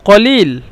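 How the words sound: The word begins with a deep q sound. This is the original standard form. "মূলত ছিল কলিল"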